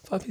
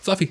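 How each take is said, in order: First: The voice sounds hesitant and unsure. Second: The voice sounds firm and confident. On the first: The speaker lacks confidence in the command. The speaker calls it wrong. "you're not going to go" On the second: The speaker is sure the command will be followed. The speaker calls it right. "You hear the difference in that confidence?"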